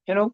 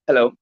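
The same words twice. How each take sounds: First: It is said weakly with the mouth barely open. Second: It is said strongly with the mouth wide open. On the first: The caller sounds unsure and lacks weight. The speaker calls it wrong. "कुछ लोग ऐसे बात करते हैं, ... ऐसे नहीं बात करनी, मुंह फाड़ो ना।" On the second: The caller sounds professional and confident. The speaker calls it right. "Invitation हमेशा एकदम प्रोफेशनल वे में चालू करनी है।"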